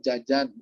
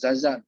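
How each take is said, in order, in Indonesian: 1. Kata ini diawali bunyi 'j'. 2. Kata ini diawali bunyi 'z'. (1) "jajan misalkan" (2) "bukan zazan"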